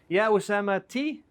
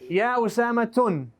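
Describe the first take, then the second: First: The name ends in a plain i vowel. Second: The name ends in u followed by n. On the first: "I can never say Usama T with a kesra" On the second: "It can't be Usama tun"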